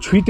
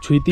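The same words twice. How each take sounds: First: "छुईत" ending on the t sound; "छुईत", the shorter form without the closing vowel; variant pronunciation. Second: "छुईती" ending in a long ee; "छुईती", the longer form with a closing vowel; variant pronunciation. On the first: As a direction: say "छुईत" with no final long ee. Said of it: "कुछ लोग छुईत भी बोलते हैं". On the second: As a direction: say "छुईती" with a final -tee syllable. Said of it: "कुछ लोग छुईती भी बोलते हैं". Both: Shown as a demonstration.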